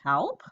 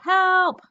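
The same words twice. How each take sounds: First: It is said as a rising question. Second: It is said as an excited shout.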